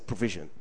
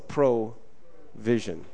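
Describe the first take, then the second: First: The word is said quickly. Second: The word is said slowly. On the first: "If you say it really fast" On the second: "Now say it slow"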